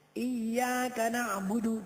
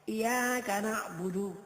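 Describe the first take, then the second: First: The y sound is held doubled. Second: The y sound is short and single. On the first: The speaker calls it right. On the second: The speaker calls it wrong.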